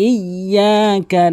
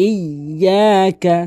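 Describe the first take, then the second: Both takes have the same delivery.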